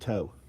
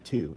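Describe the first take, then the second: First: The word ends with an 'oh' vowel. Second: The word ends with an 'oo' vowel. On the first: "Is that how you say it" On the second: "or is it two?"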